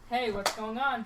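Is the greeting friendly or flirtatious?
friendly. It sounds plain and friendly.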